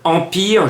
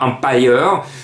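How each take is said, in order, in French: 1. Le nom est prononcé à la française. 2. Le nom est prononcé d'une manière non française. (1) "je prononce à la française" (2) "et non pas Empire"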